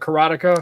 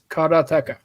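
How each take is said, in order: First: One syllable is stressed more than the others. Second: All syllables are said evenly, with no stress. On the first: The speaker calls it wrong. "I always call it karateka" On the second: The speaker calls it right. "there is no inflection to the words"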